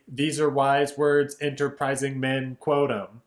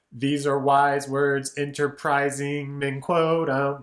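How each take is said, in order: First: "enterprising men" said straight through, not held; unstretched version. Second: Slow, "enterprising men" drawn out; stretched rhythm. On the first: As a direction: rush "enterprising men" without holding it. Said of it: "Otherwise, it'd be". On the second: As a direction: hold out "enterprising men" to sell the rhyme. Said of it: "stretching the rhythm on enterprising men". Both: Shown as a demonstration.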